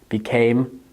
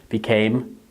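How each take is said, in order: Both takes have the same delivery.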